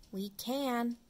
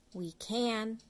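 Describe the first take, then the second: No difference in how they are said.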